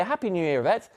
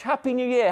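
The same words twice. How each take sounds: First: Warm greeting. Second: Bright, high happy greeting; excited greeting. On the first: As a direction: say it gently to her alone. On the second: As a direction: call it out cheerfully, pitched up. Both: Real, not acted. Greeting a viewer by name.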